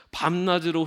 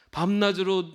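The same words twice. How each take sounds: First: Said in the usual way. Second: 밤낮으로 repeated on its own, higher and louder; stress on 밤낮으로. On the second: Shown as a demonstration. Preacher repeating the verse's key word for the congregation, stressed. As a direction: hit 밤낮으로 hard to drive it home.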